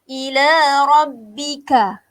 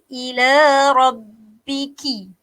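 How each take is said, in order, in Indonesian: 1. Kata terakhir berakhir dengan vokal 'a'. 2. Kata terakhir berakhir dengan vokal 'i'. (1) "huruf kaf ah, dibaca dengan baris atas" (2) "Saya buat kesalahan saya"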